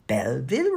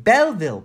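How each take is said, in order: First: "Belleville" with a rising, querying tune; questioning repeat. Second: High, loud, decisive answer; piping in. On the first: Missus Cumberstone queries "Belleville", questioning with a rise. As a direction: echo "Belleville" back as a question, less loudly. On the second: John supplies the missing town name, piping in. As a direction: pipe up with a bold, falling exclamation. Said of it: "piped in John". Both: A narrator's reading.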